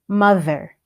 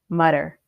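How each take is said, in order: First: The middle consonant is a th sound. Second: The middle consonant is a d sound.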